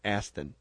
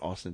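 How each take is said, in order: First: The first vowel sounds like 'cat'. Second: The first vowel sounds like 'awe'. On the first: The speaker calls it right. "It's Aston" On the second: The speaker calls it wrong. "It's not Austin"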